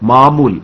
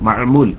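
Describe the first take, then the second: First: The first two vowels merge without a throat consonant. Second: A throat consonant separates the first two vowels.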